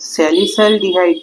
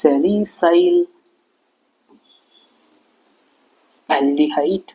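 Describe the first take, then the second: First: The two parts are run together and shortened. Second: Both parts are said fully and separately.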